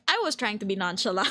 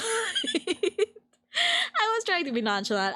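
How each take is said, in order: First: Said in the usual way. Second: Giggling it out slowly in a high voice; laughing, slow and high. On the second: Shown as a demonstration. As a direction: laugh through it, stretched out and high. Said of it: "laughs, repeated slow and high".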